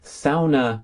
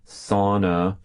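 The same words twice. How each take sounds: First: Sauna is said the Finnish way. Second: Sauna is said in a lazy American accent.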